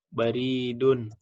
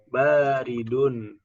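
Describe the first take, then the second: First: The second vowel is held long. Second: The first vowel is held long. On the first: It means post or mail. The speaker calls it wrong. "Bacanya malah baridun. Nah, ini salah nih" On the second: It means cold. The speaker calls it right. "ini hati-hati ya bacanya"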